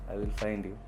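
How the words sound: It is said in a nice, friendly tone.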